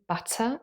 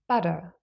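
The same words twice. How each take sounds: First: The middle T is a strong, aspirated T. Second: The middle T is a quick, light tap. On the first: "I just had a T sound here, aspirated even" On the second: "So there's just this light T"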